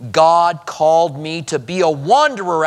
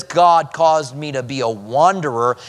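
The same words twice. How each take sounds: First: Touch of pride, lifting on wanderer; as if privileged. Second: Understated complaint, more level delivery; blaming. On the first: Preacher voicing what Abraham doesn't say, as if privileged. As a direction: say it like an honour you were given. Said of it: "as if it's a privilege". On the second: Preacher quoting Abraham blaming God, mildly reproachful. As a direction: lay the blame on God, mildly. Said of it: "he's blaming God". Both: Acted.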